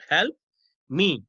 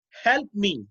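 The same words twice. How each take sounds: First: "Help", pause, then "me" on its own; word-by-word dictation. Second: Said in the usual way. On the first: Shown as a demonstration. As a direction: split "Help" and "me" with a clear gap. Repeats example word by word.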